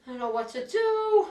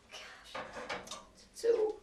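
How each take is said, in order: First: Said in the usual way. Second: Anxious breathy whisper to herself; hushed fretting whisper; worried whisper. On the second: Acted. Worried daughter talking to herself.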